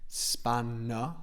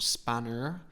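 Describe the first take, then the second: First: The word ends in an open vowel without R. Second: The word ends with an audible R sound. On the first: The speaker calls it right. "spanner, open mouth" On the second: The speaker calls it wrong. "we don't pronounce the R, it's not spanner"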